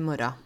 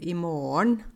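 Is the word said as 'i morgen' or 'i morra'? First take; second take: i morra; i morgen. First: The word is said in dialect as 'imorra'. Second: The word is said in full as 'i morgen'. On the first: This is how the speaker's dialect says it. "på min dialekt da, så sier jeg i morgen. I-M-O-R-R-A" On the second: This is how some other people say it. "noen sier i morgen"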